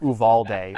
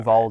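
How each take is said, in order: First: The name is said with a Spanish pronunciation. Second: The name is said with a Texan pronunciation.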